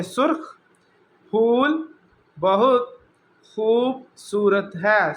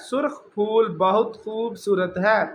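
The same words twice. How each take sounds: First: "سرخ پھول بہت خوبصورت ہے" read slowly, a pause after each word. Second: Said in the usual way. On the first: Shown as a demonstration. (آہستہ آہستہ ایک ایک لفظ الگ پڑھنا) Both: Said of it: "میں صرف اس کی ایسے ہی ریڈنگ کر دیتا ہوں".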